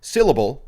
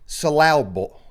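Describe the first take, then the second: First: Said in the usual way. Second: "Syllable" said as suh-LAB-ul; wrong-stress "Syllable". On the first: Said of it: "is the real word". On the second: Shown as a demonstration. Host trying the joke word after the real one, "Syllable" as suh-LAB-ul. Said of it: "syllable is the real word".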